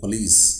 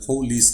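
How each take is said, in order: First: The first vowel is a reduced schwa sound. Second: The first vowel is a full 'oh' sound. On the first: The speaker calls it right. "यहाँ पे हम करेंगे पुलिस" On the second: The speaker calls it wrong. "पुलिस नहीं कर सकेंगे"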